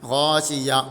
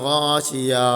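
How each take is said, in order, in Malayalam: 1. ഇത് അവസാന ഹ-യ്ക്ക് മുമ്പ് മുറിയുന്നു. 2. ഇത് നീട്ടിയ അ സ്വരത്തിൽ അവസാനിക്കുന്നു. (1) "ഇവിടെ യാ... അതിൽ നിർത്തി. അങ്ങനെ നിർത്താനും പാടില്ല" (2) "ഹാഇന് പകരം അലിഫ് വരികയോ ചെയ്യരുത്... അങ്ങനെ നീട്ടിക്കാണ്ട്"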